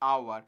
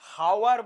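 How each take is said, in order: First: The word starts with a vowel, no h. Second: The word starts with an audible h sound. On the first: The speaker calls it right. "এটাকে আমরা বলি আওয়ার" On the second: The speaker calls it wrong. "আমরা হাওয়ার বলি না"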